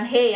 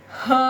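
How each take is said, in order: First: "he" rhyming with hey; "he" as Indonesian hé; wrong reading. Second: "he" as huh, with a schwa, higher; "he" with an uh vowel, pitched up; correct Mandarin reading. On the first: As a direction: say "he" with a clear é. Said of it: "bukan he". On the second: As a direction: say "he" high, as huh. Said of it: "bukan he, ya, bacanya". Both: Shown as a demonstration.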